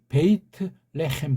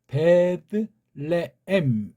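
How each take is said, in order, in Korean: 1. 긴 모음으로 읽고 t와 h를 넣어요. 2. 짧은 d로 읽고 h는 넣지 않아요. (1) "구약이 있다고 할 땐 베이트 레헴 그렇게 읽는 게 좋아요" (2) "헬란 말 자체를 볼 땐 베드 레엠 이렇게 읽지만"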